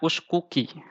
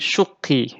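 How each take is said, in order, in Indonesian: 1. Dua bunyi k dipisahkan oleh sebuah vokal. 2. Dua bunyi k menyatu menjadi satu k yang digandakan. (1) "kita tidak baca uskuki" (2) "tapi syukki gitu"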